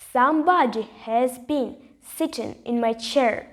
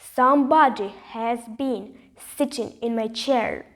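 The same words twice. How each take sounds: First: It is said in a middle-sized voice. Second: It is said in a rough, gruff voice.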